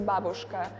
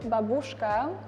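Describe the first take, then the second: First: The word is said in a native Russian way. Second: The word is said in a foreign, English-style way. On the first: The speaker calls it right. "like you say babushka" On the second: The speaker calls it wrong. "lots of uh, foreigners pronounce it babushka. We don't say that in Russian"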